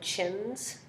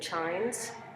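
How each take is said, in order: First: The vowel is a short i sound. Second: The vowel is a long i sound. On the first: The speaker calls it wrong. "rather than chins" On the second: The speaker calls it right. "I'm saying chines"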